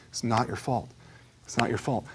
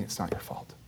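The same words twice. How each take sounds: First: Softer, gently pressing each word; soft repetition. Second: Barely whispered, much softer. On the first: Counselor gently repeating it to the young man, softly. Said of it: "keeps saying it". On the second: Counselor whispering it to the angry young man, very soft. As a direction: breathe it out as a whisper. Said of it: "And he keeps saying". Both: Retold or imitated.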